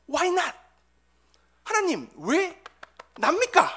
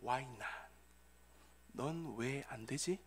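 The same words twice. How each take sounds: First: Loud, high plea to God; resentful questioning. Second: Very soft, low divine voice; reply slowly and quietly, pitched low; God's answer. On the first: Bereaved father questioning God, resentful high outcry. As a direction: cry out the question in protest, word by word. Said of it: "하나님을 원망하며". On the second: God answering a grieving father, hushed low reply. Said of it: "하나님께서는 조 바이든에게 이렇게 대답하셨습니다". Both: Acted.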